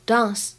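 It is said with a British accent. "在英式英语当中呢，这个单词读作dance"

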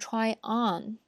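The stress falls on the word on. The speaker calls it right. "它的重音会在后边的这个代词介词或者是副词上，所以我们说try on"

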